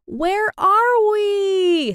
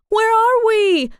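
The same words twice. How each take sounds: First: High drawn-out scream down the slide; long frightened scream, very high. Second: Very high, loud, drawn-out shout; shouted high and long. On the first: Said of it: "screamed Sarah". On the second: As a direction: yell it into the dark. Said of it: "exclaimed Jade". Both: A narrator's reading.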